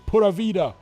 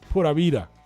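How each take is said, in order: First: The v is a hard English V sound. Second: The v is a soft, B-like sound. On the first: It marks the speaker as a foreigner. The speaker calls it wrong. "Spanish speaking people don't pronounce a V like that" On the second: It sounds like a native speaker. The speaker calls it right. "It's like a cross between a B and a V. Pura vida, like that"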